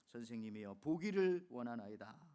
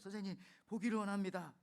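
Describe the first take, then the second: First: It is spoken slowly and calmly. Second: It is spoken quickly and urgently. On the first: The speaker calls it wrong. "저처럼 이렇게 점잖게 말하진 않았을 거예요" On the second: The speaker calls it right. "굉장히 급하게 말했을 거예요"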